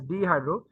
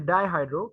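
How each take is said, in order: First: The first syllable sounds like 'dee'. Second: The first syllable sounds like 'die'. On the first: The speaker calls it wrong. "I was pronouncing it as dehydro" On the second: The speaker calls it right. "It's basically dihydro"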